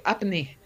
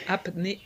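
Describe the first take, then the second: First: "apnée" said the French way, ap-NAY with stress on the end. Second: "Apnea" tried the English way, AP-nee-uh, with a little laugh. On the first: Explaining sleep apnea to the interviewer, the French word "apnée". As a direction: give "apnée" its French vowels, ending in a clear ay. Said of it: "mais, euh, en français". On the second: Explaining sleep apnea to the interviewer, trying the English "Apnea" with a laugh. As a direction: say "Apnea" in English, stress on the first syllable, chuckling. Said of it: "Mais in English". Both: Shown as a demonstration.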